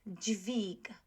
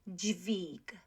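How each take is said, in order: Both takes have the same delivery.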